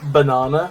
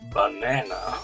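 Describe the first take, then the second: First: It is said in the speaker's non-American accent. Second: It is said in an American accent.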